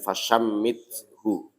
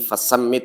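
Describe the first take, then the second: First: The consonant after 'fa' is an sh. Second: The consonant after 'fa' is a plain s. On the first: The speaker calls it right. "diganti dengan fashammithu" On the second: The speaker calls it wrong. "tadi fasammit itu diganti"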